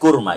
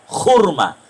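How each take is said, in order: First: It starts with a plain, clean k sound. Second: It starts with a rough, throaty kh sound. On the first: This is how Indonesians say it. "Jadi orang kita kurma" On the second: This is how Iranians say it. "orang Iran nyebutnya kurma, tapi bukan kaf. Kho, kho"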